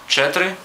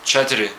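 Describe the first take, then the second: First: The middle vowel is barely heard. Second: The middle vowel is pronounced clearly.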